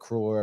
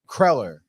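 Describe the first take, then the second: First: The first vowel sounds like the vowel in 'bud'. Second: The first vowel sounds like the vowel in 'bed'. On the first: This is a form heard from others. "I've heard cruller" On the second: This is how a family member says it. "is how my mother pronounces it, which I'm pretty sure is the correct way"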